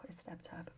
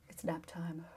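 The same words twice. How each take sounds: First: "Oh, it's nap time" whispered, with no voice; soft nap-time whisper; hushed whisper. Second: Said in the usual way. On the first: Real, not acted. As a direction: drop to a whisper so you don't wake anyone.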